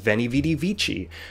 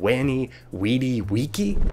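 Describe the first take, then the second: First: The words begin with a V sound. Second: The words begin with a W sound. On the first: "I always thought Caesar's quote was" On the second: "V's were W's and C's were K's"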